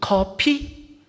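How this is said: It is said with a Korean-style pronunciation.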